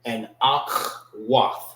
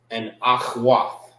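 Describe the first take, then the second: First: Akhwath said very slowly, AHK-wath, every sound clear; proper pronunciation. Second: And Akhwath said slowly, each syllable clear, AHK-wath; proper pronunciation. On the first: Teacher repeating to students, a slow clear Akhwath. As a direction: draw out Akhwath for the class. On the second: Teacher to students, a careful slow Akhwath. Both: Shown as a demonstration. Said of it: "That's the proper way how to say it".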